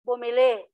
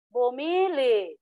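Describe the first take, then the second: First: The stress is on the last syllable. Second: The stress is on the second-to-last syllable. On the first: The speaker calls it right. "so bigkasin mo ng bumili" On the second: The speaker calls it wrong. "malumay na to"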